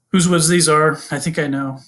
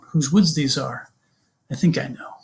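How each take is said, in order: First: It is said flatly, with no expression. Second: It is said expressively, with fitting tone. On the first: The speaker calls it wrong. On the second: The speaker calls it right. "The idea is to think about the tone"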